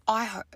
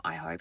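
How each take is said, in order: First: Said in the usual way. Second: Dropped low and hushed, an imitated sinister tone; low quiet menace. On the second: Worker imitating the rude customer's veiled threat, low and hushed. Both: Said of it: "no, not".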